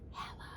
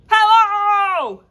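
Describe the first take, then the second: First: It is said very quietly. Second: It is said very loudly.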